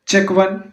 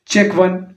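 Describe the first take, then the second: Both takes have the same delivery.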